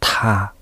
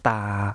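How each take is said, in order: First: The consonant is released with a strong puff of air. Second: The consonant is released without a puff of air. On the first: "有気音でやってみると" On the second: "タの無気音は"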